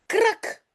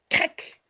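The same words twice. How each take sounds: First: High, sharp krak of tearing cloth; cracking noise. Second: Krak breathed out unvoiced; whispered crack. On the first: Teacher reading the pillow's sound, a sharp high crack. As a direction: pop out Krak like a seam ripping. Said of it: "zegt het kussen". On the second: Teacher repeating the pillow's sound, whispered crack. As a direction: let Krak hiss out with no voice. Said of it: "dit le coussin". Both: A narrator's reading.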